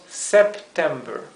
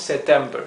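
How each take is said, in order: First: The p and t are both clearly pronounced. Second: The p and t are blurred together. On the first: The speaker calls it right. "haciendo bastante énfasis en esas dos consonantes" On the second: The speaker calls it wrong. "No decimos September"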